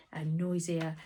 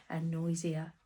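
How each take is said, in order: Both takes have the same delivery.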